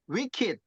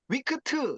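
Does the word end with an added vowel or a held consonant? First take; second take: held consonant; added vowel. First: The final consonant is held with no vowel after. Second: An extra vowel sounds after the final consonant. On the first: The speaker calls it right. "받침으로 간다고 생각하시면 돼요. 그래서 wicked 이렇게 읽는 거예요" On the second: The speaker calls it wrong. "발음을 못하시면 이렇게 돼요. 위크트 이렇게 된다든가"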